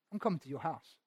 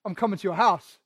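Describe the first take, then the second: First: Soft, hushed, lightly voiced Jesus; tender promise. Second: Casual, throwaway line; offhand. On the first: Jesus tenderly telling Zacchaeus he is coming, softly. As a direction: say it quietly as a heartfelt gift. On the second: Shown as a demonstration. A shallow version of Jesus' words, said casually. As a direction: toss it off like it means nothing. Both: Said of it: "wasn't just like".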